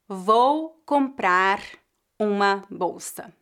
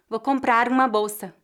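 First: The words comprar and uma are said separately. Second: The words comprar and uma are linked together.

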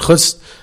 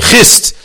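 First: The vowel sounds like 'oo' in 'push'. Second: The vowel sounds like 'i' in 'fish'. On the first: The speaker calls it wrong. "don't like it when you pronounce it Chust" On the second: The speaker calls it right. "They say Chist"

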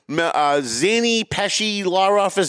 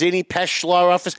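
First: The surname is said longer, not as 'Pesh'. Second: The surname is said as one syllable, 'Pesh'.

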